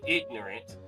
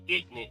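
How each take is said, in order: First: The word is pronounced carefully and in full. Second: The word is pronounced in a lazy, clipped way. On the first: The speaker calls it right. "just pronouncing the words" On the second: The speaker calls it wrong. "broken or lazy English"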